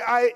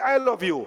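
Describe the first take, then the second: First: There is a pause after I. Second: It is said without any pause.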